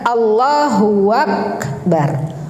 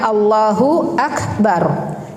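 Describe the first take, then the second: First: The words are linked with a w-sound: huwak. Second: The words are said without an added w-sound. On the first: The speaker calls it wrong. "Jangan Allahu Akbar. Huwak itu salah" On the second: The speaker calls it right. "kalimatnya Allahu Akbar"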